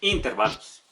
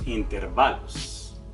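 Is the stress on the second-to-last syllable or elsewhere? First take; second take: elsewhere; second-to-last. First: The stress is not on the second-to-last syllable. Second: The stress is on the second-to-last syllable. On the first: The speaker calls it wrong. "tampoco decimos" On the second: The speaker calls it right. "decimos intervalos"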